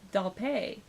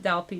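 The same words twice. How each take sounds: First: The name is said with French Canadian pronunciation. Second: The name is said with ordinary English pronunciation. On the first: This is how the name's owner says it. "actually, it's Dalpe, French Canadian" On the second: This is an accepted alternative way to say it. "but you can pronounce it Dalpe if you want"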